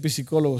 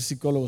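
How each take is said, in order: First: "psicólogo" said "pi-si-CÓ-lo-go"; wrong-example "psicólogo" as "pisicólogo"; P sounded. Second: "psicólogo" said "si-CÓ-lo-go"; "psicólogo" as "sicólogo", P left out; silent P. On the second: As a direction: drop the P of "psicólogo", starting on s. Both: Shown as a demonstration. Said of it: "se omite la P".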